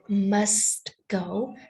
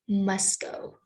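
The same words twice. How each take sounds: First: The T sound in must is clearly heard. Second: The T sound in must is dropped.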